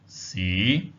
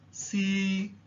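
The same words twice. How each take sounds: First: The pitch starts lowest and rises slightly. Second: The pitch stays high and level. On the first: The word means city. "starts at the lowest possible point and then rises upwards" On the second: The word means poem. "Tone number one is the high level tone, which stays at a high level"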